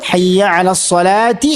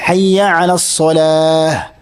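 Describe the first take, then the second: First: The last word ends in a ti sound. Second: The last word ends in an h sound. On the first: "കൂട്ടി വായിക്കുമ്പോൾ" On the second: "അങ്ങനെയല്ല"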